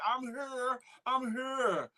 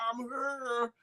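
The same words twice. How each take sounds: First: Quoting her plainly; just read her words as typed; plain quote. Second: Put-on a light New York accent on I'm here. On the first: Retold or imitated. Host reading a viewer's greeting, plain quote. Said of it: "she say". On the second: Host imagining the viewer greeting him, light New York accent. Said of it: "with her New York accent".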